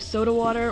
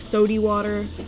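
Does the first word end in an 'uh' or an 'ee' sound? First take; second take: uh; ee. First: The first word ends in an 'uh' sound. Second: The first word ends in an 'ee' sound. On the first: "it's either soda water or sody water" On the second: "it's either soda water or sody water"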